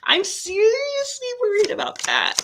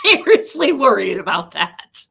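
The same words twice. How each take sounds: First: Much higher, squeaky seriously worried; high worried whine. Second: Laughing out seriously worried, a touch louder; nervous laugh. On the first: Worried the cards will make her cry, high whine. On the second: Worried the cards will make her cry, nervous laughing. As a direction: laugh through the worry. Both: Real, not acted.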